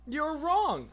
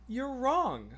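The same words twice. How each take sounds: First: Higher, louder playful insistence; emphatic verdict. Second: A light teasing ruling; playful verdict. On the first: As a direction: declare it like a final ruling. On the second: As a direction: say it lightly, half joking. First take of verdict. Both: Real, not acted.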